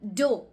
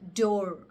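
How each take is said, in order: First: The R sound at the end is dropped. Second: The R sound at the end is clearly pronounced. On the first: "The R's are not totally pronounced" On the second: "more rolled and pronounced very clearly"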